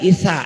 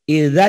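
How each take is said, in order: First: The middle consonant is a voiceless s sound. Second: The middle consonant is a voiced z sound. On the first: The speaker calls it wrong. "zainya jadi sa" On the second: The speaker calls it right. "zainya jadi sa"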